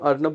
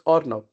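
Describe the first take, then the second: First: The name starts with an open 'ar' vowel. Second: The name starts with a rounded 'or' vowel.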